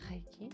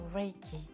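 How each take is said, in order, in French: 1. Il se prononce avec un R à la française. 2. Il se prononce avec un R de l'anglais américain. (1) "en France Reiki" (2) "en anglais aux États-Unis souvent Reiki"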